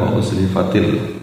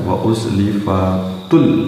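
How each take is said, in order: First: The second word ends with the vowel i. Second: The second word ends with the vowel u. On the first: The speaker calls it right. "bukan wa uzlifatil" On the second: The speaker calls it wrong. "yang dibaca oleh imam itu terdengar wa uzlifatul"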